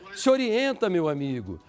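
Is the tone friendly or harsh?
friendly. It is said in a friendly, gentle tone.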